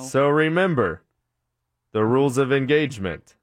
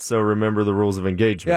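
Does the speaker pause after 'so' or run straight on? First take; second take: pause; run on. First: The speaker pauses after 'so'. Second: The speaker runs straight on after 'so'. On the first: The speaker calls it wrong. "It's a verbal comma that didn't belong there" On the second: The speaker calls it right. "Not so remember the rules of engagement"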